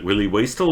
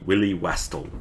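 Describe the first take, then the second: First: "Wastel" said WAY-stel; long A in Wastel. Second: "Wastel" said WESS-tel or WASS-tel; short vowel in Wastel. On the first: Streamer asking which pronunciation is right, "Wastel" as WAY-stel. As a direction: give "Wastel" the vowel of waist. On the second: Streamer asking which pronunciation is right, "Wastel" with short vowel. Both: Shown as a demonstration. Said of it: "pronunciation of that is very critical".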